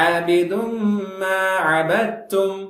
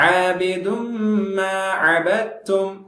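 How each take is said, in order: Both takes have the same delivery.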